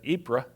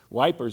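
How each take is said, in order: First: The name is said in a French-like way. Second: The name is said like the English word wipers. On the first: "I think that's how you pronounce it" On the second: "is how the Brits actually pronounce it"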